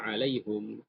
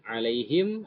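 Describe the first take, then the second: First: The vowel after the h is u. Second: The vowel after the h is i. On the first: This is a reading some others follow. "ada yang baca alaihum" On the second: This is the reading the group follows. "Kalau kita alaihim"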